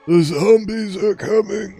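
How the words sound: It is said in a loose, slack-lipped voice. The speaker calls it right. "not gravelly, but instead more loose lip sync ships type of deal"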